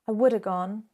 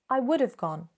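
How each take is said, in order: First: 'Have' is shortened to a weak 'uh' sound. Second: 'Have' is shortened to a 'v' sound. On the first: "what you might instead hear is woulda" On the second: "So it sounds something like this"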